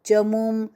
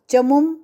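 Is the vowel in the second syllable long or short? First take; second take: long; short. First: The second syllable has a long vowel. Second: The second syllable has a short vowel. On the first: The speaker calls it right. "ये मु दीर्घ" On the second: The speaker calls it wrong. "नहीं"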